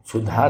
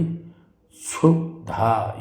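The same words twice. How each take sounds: First: क्षुधा begun with a "chh" sound; wrong pronunciation. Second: क्षुधा begun with "s/sh", drawn out; correct pronunciation. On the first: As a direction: say क्षुधा as "chhudha". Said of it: "क्षुधा नहीं होगा". (क्षुधा को "छुधा" बोलें) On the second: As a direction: say क्षुधा slowly as "kshu-dha". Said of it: "क्षुधा ये होगा". (क्षुधा को धीरे, "क्षु-धा" बोलें) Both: Shown as a demonstration.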